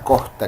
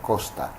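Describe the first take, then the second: First: The s sound is relaxed and weakened. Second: The s sound is clear and crisp. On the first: "solemos relajar la S ... pronunciamos así" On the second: "de manera más nítida la S"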